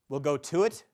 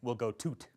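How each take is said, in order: First: Both final words are said fully with the vowel. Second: The final words merge into one, dropping the vowel.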